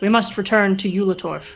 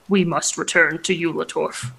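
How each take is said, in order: First: It is said in the normal speaking voice. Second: It is said in a put-on deeper voice.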